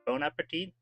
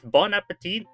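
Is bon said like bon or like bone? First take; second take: bone; bon. First: The first word sounds like bone. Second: The first word sounds like bon. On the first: "I guess with an accent, it might sound like bone" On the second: "You say bon, it's bon appetit"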